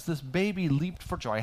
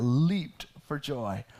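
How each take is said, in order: First: Said in the usual way. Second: Slow, stretched leaped for joy with weight on leaped; savoring the phrase. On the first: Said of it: "I want you to think about this". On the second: Shown as a demonstration. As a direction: linger on "leaped" in delight. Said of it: "Look at that".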